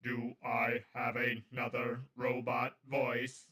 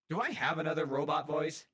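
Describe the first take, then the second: First: Slow, even machine voice; robot voice. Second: Said in the usual way. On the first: Shown as a demonstration.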